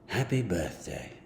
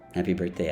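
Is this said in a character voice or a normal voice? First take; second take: character voice; normal voice. First: It is said in a put-on character voice. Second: It is said in the speaker's ordinary voice.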